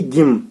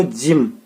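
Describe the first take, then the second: First: गिम with a hard g sound, the mistake to avoid; wrong pronunciation. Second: जिम with a soft j sound, as in जौ; correct pronunciation. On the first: Teacher shows pupils the wrong reading, गिम. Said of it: "ना कि गिम". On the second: Teacher shows pupils the right sound of जिम. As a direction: say जिम starting with ज, never a hard g. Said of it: "इसको हम क्या पढ़ते हैं". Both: Shown as a demonstration.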